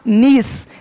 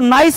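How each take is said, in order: First: The vowel sounds like 'ee'. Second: The vowel sounds like 'eye'. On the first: The speaker calls it right. "नीस मतलब भतीजी" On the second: The speaker calls it wrong. "अब इसको नाइस मत पढ़ना"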